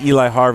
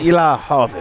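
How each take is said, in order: First: It is said in a plain accent. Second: It is said in a southern accent.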